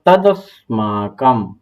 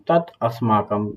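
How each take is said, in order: First: Said as one word with a d sound. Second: Said as two words with a t sound.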